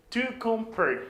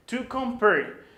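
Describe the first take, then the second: No difference in how they are said.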